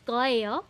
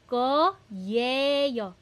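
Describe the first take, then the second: First: It is said quickly and the y almost disappears. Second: Each syllable is said separately with a clear y. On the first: "sometimes you don't hear the ye. It's just koyeyo" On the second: "ang sto- tamang spelling ng koyeyo is ko-ye-yo"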